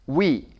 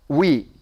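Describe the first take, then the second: The two takes are said the same way.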